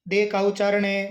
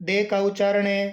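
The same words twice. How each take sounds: Both takes have the same delivery.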